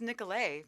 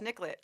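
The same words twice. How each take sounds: First: The name is pronounced the French way. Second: The name is pronounced the local English way. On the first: The name comes from French. "I was like, it's Nicolet ... but it's French" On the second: This is how locals say it. "People are like, it's Nicolet"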